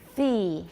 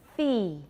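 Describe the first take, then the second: No difference in how they are said.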